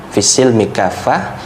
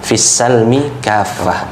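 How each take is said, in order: First: The vowel after the s is 'i'. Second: The vowel after the s is 'a'. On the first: It means Islam. "di kasrah" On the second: It means peace and reconciliation. "dengan di sinnya di fathah"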